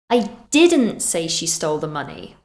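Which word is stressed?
didn't. The stress falls on the word didn't. The speaker denies saying it. "We're emphasizing that this is not something we did"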